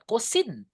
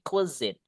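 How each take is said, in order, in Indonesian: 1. Suku kata kedua diawali bunyi 's' yang tajam. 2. Suku kata kedua diawali bunyi 'z' yang bergetar. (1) "Not cuisine" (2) "S-nya itu suaranya kayak Z gitu. Lebih tebal"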